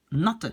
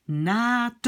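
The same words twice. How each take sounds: First: NOT with a short vowel, like the base adjective; short closed vowel. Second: NAT with a long drawn-out A, naa-te; long open vowel. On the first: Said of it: "je veux que ça sonne comme l'adjectif d'origine". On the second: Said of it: "Et je devrais prononcer". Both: Shown as a demonstration.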